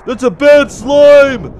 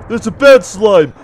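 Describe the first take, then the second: First: Slow, high, loud wail; drawn-out panicked cry; alarmed shout. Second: Worried, emphatic warning; alarmed but contained; mild alarm. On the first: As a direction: stretch the warning into a shout. Repeats it louder, drawn out. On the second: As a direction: point out the danger, not yet shouting. First alarmed remark on slime. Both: Real, not acted.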